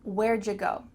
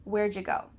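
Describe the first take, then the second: First: It is contracted, with 'you' said as 'ja'. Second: It is contracted, with 'you' said as 'ja'.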